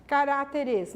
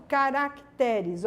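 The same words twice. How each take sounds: First: Caráteres, the rejected plural with stress on té; wrong form. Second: Caracteres, slow and careful with stress on te; correct form. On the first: (forma errada: Caráteres, com acento em té) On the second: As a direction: spell out Caracteres slowly, stress on te. (forma correta: Caracteres, devagar, tônica em te) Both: Shown as a demonstration. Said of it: "não".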